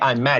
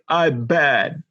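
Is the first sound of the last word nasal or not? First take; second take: nasal; not nasal. First: The m sound is fully nasal. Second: The m sound comes out like a b. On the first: "You don't say "I'm mad."" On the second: "I just made those M's B's"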